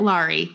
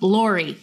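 First: The name is said with a Utah accent. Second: The name is said without a Utah accent. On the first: The speaker calls it wrong. "My Utah came out there for a minute" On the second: The speaker calls it right. "Laurie, not Laurie"

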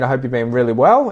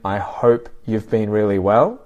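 First: The phrase is said quickly. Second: The phrase is said slowly. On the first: "if there's misunderstanding when speaking quickly" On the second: "So I can say it slowly"

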